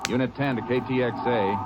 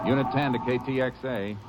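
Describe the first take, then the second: First: Radio call. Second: Radio call again. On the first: Ranger radioing headquarters, calling into the mic. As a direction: hail headquarters over the radio. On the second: Ranger repeating his radio call to headquarters. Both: Acted.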